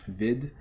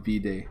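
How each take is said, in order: First: The name is pronounced the French way. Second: The name is pronounced a non-French way. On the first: The speaker calls it wrong. "so I pronounce it in in French" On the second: The speaker calls it right. "I'm sure it's probably Vide or something like that"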